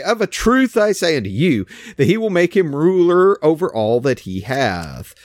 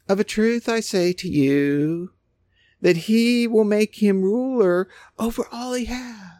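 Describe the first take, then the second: First: Forceful, authoritative reading of Jesus; with authority. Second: Effeminate Jesus. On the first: Preacher showing his flock Jesus's words, said with authority. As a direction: read it like he's not messing around. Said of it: "Read it in the tone of Jesus". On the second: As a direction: read it touchy-feely and gentle. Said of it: "they would almost put this, like, effeminate". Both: Shown as a demonstration.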